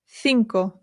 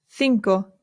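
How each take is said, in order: The two takes are said the same way.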